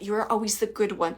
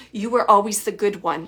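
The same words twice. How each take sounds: First: Said in the usual way. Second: A touch louder, mother's fond reproach; mom's way of saying it. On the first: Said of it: "She's saying it like that". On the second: Retold or imitated. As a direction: say it like mom would, lightly pointed. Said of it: "I'm just gonna say how she said it".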